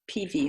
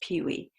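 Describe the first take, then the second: First: The name is said with a Polish accent. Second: The name is said with a plain accent.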